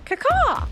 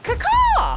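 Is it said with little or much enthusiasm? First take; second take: little; much. First: It is said with little enthusiasm. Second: It is said with more enthusiasm.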